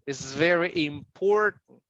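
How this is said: The T in important is dropped. "American important"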